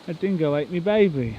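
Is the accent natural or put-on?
put-on. It is said in a put-on accent. "I don't know why I said it in that accent"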